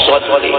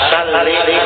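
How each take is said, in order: First: The first consonant is a heavy, emphatic s. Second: The first consonant is a light, plain s. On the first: Grant mercy. The speaker calls it right. "Bacaannya S O" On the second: Draw the sword. The speaker calls it wrong. "Lamun dibaca S A"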